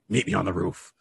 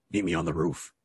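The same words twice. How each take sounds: First: Dark whisper behind you. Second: Low, hushed voice from the shadows; menacing low murmur from the dark; dark whisper behind you. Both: Retold or imitated. Shadowy voice calls to Azrael.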